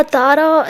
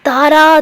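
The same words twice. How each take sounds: First: Said in the usual way. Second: Name called out higher and louder; calling out a name. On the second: Retold or imitated. Retelling how Tara is yelled for, calling her name loudly. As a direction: call out Tara across the room, raised and loud. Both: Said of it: "तारा ऐसे चिल्लाती है".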